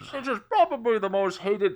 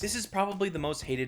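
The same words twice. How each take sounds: First: It is said in a put-on villain voice. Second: It is said in a normal speaking voice.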